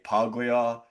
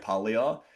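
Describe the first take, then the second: First: The g is sounded as a hard g. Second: The g is not sounded as a g. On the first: "I will always say Puglia with a G" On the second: "I'm not gonna say Puglia"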